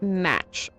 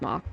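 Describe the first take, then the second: First: It is one syllable ending in a ch sound. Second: It is one syllable ending in a k sound. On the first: The speaker calls it right. "It's pronounced match, I think" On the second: The speaker calls it wrong. "I first read it as mock, but that's wrong"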